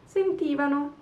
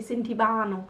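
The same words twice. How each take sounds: First: The stress is on the third-to-last syllable. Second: The stress is on the second-to-last syllable. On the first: The speaker calls it right. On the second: The speaker calls it wrong.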